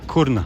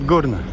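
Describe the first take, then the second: First: The name begins with a hard K sound. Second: The name begins with a hard G sound. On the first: This is how the name is written. "they write it Kurna with ka, ka, ka sound" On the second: This is how local people say it. "but they usually pronounce it Gurna, at least locally here"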